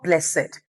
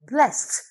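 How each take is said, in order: First: The ending is not a voiceless t sound. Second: The ending is a voiceless t sound. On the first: The speaker calls it wrong. "not blessed" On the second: The speaker calls it right. "The word B L E S S E D is pronounced as blessed"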